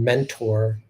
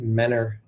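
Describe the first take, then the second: First: The middle T sound is clearly pronounced. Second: The middle T sound is dropped entirely.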